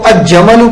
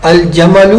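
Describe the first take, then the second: First: الجمل wrongly read aj-jamal, the lam assimilated; wrong merged reading. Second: الجمل read al-jamal with a clear lam; correct lam. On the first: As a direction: demonstrate the error in الجمل. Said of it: "پڑھنا غلط ہوگا". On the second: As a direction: slowly say الجمل with the lam sounded. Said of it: "ان کا لام پڑھا جائے گا". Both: Shown as a demonstration.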